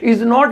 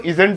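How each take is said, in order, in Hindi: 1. Not को एक अलग, पूरे शब्द के रूप में बोला जाता है। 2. Not क्रिया के साथ जुड़कर संकुचित हो जाता है। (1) "इज नॉट बोलना हो" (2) "तो इजेंट बोल दो"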